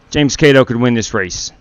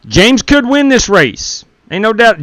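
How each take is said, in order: First: Said in the usual way. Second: High, slow and drawn-out; hyped-up call. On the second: Real, not acted. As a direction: sell it like a race announcer. Hyping a racer's chances.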